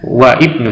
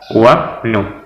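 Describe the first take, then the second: First: The 'i' of ibnu is pronounced separately. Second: The 'i' is dropped, linking straight into 'bnu'. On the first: The speaker calls it wrong. "bukan wa ibnu" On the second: The speaker calls it right.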